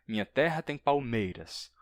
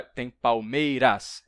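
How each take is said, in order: First: Said in the usual way. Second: "palmeiras" slow and loud, its unstressed "ras" pushed as if it counted; wrongly stressed ending. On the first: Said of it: "Não é, não é". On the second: Shown as a demonstration. Teacher showing what not to count, "palmeiras" with a forced loud final "ras". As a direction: punch out the last syllable "ras" of "palmeiras". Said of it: "Não conta o ras".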